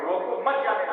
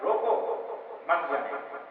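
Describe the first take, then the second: First: It is said without a pause. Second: There is a pause after the first word.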